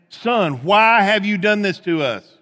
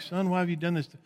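First: It is said in a scolding mother's tone. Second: It is said flatly, like plain reading.

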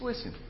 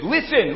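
First: It is said in a soft, soothing tone. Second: It is said in a sharp, urgent tone. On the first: The hearer needs to be calmed down. "you need to be soothed. Just listen" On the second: The hearer must pay attention now. "listen up"

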